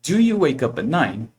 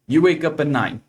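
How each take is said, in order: First: Slow teacher's question with a big arch on "Do you"; question intonation. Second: Said in the usual way. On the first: Shown as a demonstration. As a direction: stretch "Do you wake up at nine" as a clear question. (entonação de pergunta, devagar e marcada) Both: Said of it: "minha entonação muda".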